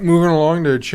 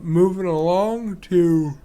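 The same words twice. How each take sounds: First: Said in the usual way. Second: Slow, yawned-out words; yawning. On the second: Real, not acted. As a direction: speak mid-yawn, drawn out. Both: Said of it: "sorry about that".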